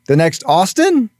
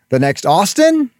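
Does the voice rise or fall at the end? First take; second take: rise; rise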